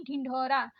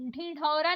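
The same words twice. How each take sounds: First: ढिंढोरा with aspirated stop ढ; correct stopped ढ. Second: ढिंढोरा with flap in place of ढ; wrong flapped ढ़. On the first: Teacher correcting learners, stopped-ढ ढिंढोरा. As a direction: press a firm DH in ढिंढोरा. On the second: Teacher showing learners the mistake, flapped ढिंढोरा. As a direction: flick the ढ in ढिंढोरा. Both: Shown as a demonstration. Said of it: "नहीं".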